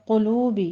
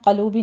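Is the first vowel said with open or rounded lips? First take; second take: rounded; open. First: The first vowel is a rounded u sound. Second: The first vowel is an open a sound. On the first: The speaker calls it right. "क़ौफ को पुर पढ़ते हुए ज़म्मा है, होंठ गोल कर लेना है।" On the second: The speaker calls it wrong. "क़लूबी नहीं पढ़ना इसको।"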